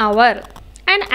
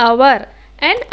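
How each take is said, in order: Both takes have the same delivery.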